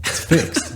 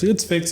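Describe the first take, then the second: First: High, laughing echo of disbelief; disbelieving echo. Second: Matter-of-fact report in a higher voice; quick report. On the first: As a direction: echo it back amazed, breaking into a laugh. Owner's amazed echo, retold. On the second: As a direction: toss it off lightly, pitched up. Mechanic's quick report, retold. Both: Retold or imitated.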